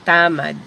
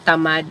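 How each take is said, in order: First: It is said with the Ilonggo pronunciation. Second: It is said with the Tagalog pronunciation. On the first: "tamad is Ilonggo" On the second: "Tamad is Tagalog"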